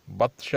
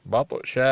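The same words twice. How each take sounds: First: بطش with the ta stopped dead, no bounce; no qalqala, wrong. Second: بطش with a small bounce on the ta; light qalqala. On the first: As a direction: say بطش flat on the ta. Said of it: "بطش نہیں". (بطش بغیر قلقلہ کے، غلط) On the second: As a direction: let the ta of بطش echo a little. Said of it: "تھوڑا کلکلہ ہونا چاہیے". (بطش میں ہلکا قلقلہ) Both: Shown as a demonstration.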